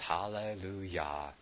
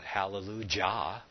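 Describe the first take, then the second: First: The last syllable starts with a y sound. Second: The last syllable starts with a j sound. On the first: The speaker calls it right. "But we know it's Hallelujah" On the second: The speaker calls it wrong. "It's not Hallelujah, as in Jehovah"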